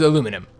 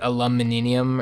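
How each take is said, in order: First: The word is said with four syllables. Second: The word is said with five syllables. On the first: "this is the way I pronounce it" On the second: "I know it's like aluminium or something like that"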